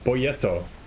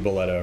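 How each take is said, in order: First: The middle consonant is a Y sound. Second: The middle consonant is an L sound. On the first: The speaker calls it wrong. "That's probably not it. Because there's not two L's" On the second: The speaker calls it right. "So it's got to be Boleto"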